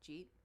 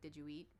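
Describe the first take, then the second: First: The words are fused into one short syllable. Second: Three separate words are said in full. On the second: "But it's like"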